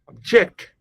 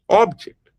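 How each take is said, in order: First: The stress is on the second syllable. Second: The stress is on the first syllable. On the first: It means to oppose or resist. "with a shift in the stress from the first syllable to the second syllable" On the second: It names a thing you can hold. "you are putting the stress on the first syllable"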